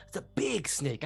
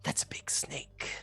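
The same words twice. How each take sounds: First: Said in the usual way. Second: Hushed whisper to himself; awed hunter whispering at a big snake; whispered thought. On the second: Acted. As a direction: breathe it out like a secret.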